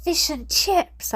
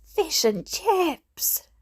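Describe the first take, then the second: First: Slow, high delighted cry; child yelling fish and chips in delight; excited yell. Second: Slow, high sing-song cheer; child chanting fish and chips victoriously; drawn-out cheer. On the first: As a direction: cheer it out like a prize. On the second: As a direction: stretch it out in triumph. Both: A narrator's reading. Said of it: "I yelled".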